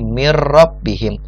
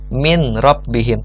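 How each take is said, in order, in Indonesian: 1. Bunyi n melebur ke dalam r, tanpa dengung. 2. Bunyi n dilafalkan sebelum huruf r. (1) "tapi mir rabbihim dan tanpa dengung" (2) "kita tidak membaca seperti ini"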